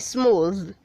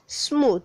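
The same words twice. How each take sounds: First: The final TH sound is voiced. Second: The final TH sound is voiceless. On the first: The speaker calls it right. "the voiced T H. So you say smooth" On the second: The speaker calls it wrong. "not smooth"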